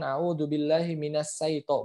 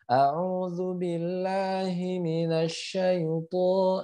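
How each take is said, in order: First: The consonant before 'ai' is a plain s. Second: The consonant before 'ai' is a spread sh. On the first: The speaker calls it wrong. "bukan sin" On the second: The speaker calls it right. "tapi ini huruf shin"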